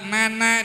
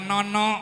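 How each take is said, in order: First: Both vowels are pronounced as an open a. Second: Both vowels are pronounced as a rounded o. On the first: This is the Sundanese way of saying it. "Di Sunda" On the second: This is the Javanese way of saying it. "di Jawa"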